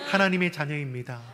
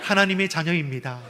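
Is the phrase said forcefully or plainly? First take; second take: plainly; forcefully. First: It is said at ordinary strength. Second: It is said with more force.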